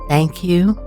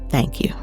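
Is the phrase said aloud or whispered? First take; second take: aloud; whispered. First: It is spoken aloud in a full voice. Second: It is whispered without full voice. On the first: "I will say the mantra out loud" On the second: "And now we'll whisper"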